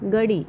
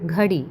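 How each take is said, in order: First: The first consonant is plain, without breathiness. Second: The first consonant is breathy, from the throat. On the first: The speaker calls it wrong. "ഗടി അല്ല" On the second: The speaker calls it right.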